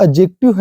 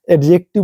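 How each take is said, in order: First: "एडजेक्टिव" as ajective, silent d; correct pronunciation. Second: "एडजेक्टिव" with a sounded d; the common slip "एडजेक्टिव"; wrong pronunciation. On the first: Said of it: "तो एडजेक्टिव है वो". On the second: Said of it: "बोल देते हैं". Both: Shown as a demonstration.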